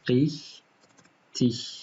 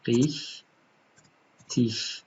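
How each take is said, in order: No difference in how they are said.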